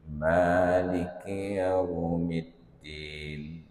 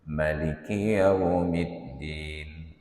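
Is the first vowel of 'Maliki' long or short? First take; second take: long; short. First: The first vowel of Maliki is drawn out long. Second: The first vowel of Maliki is kept short. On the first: "ada yang membacanya panjang" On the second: "orang yang membacanya pendek"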